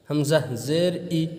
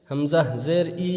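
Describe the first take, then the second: First: Slow, clear হামজা জের ই with a short clipped ই; short correct reading. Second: Sung, stretched হামজা জের ই with a long pulled vowel; drawn-out wrong reading. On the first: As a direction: say each letter short, no stretch. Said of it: "সংক্ষেপে পড়তে হবে". (টান ছাড়া সংক্ষেপে পড়া) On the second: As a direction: drag out the ই like a chant, the wrong way. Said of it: "এরকম টান সহ যেন না পড়েন". (টেনে টেনে ভুলভাবে পড়া) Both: Shown as a demonstration.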